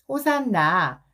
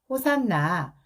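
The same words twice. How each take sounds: First: It is said in a louder voice. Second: It is said at normal loudness.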